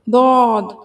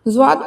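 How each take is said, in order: First: The letter starts with a heavy d sound. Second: The letter starts with a light z sound. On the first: The speaker calls it right. "अरबी एक्सेंट की बात करें तो" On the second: The speaker calls it wrong. "Urdu एक्सेंट में आता है"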